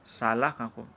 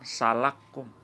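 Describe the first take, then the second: First: The two k sounds are said separately. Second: The two k sounds merge into one. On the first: "Sana ada kaf, ketemu kaf lagi" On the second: "Dibaca dengan salakum"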